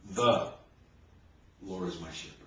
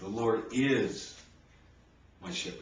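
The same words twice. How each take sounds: First: The stress is on "The". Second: The stress is on "is".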